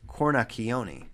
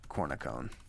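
First: The name is said with Italian pronunciation. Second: The name is said with American pronunciation. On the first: "Italian is cornacchione" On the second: "it's probably a little easier just to say cornicone"

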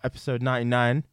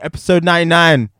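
First: It is said with low energy. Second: It is said with high energy.

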